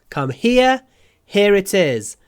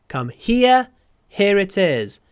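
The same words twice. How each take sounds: No difference in how they are said.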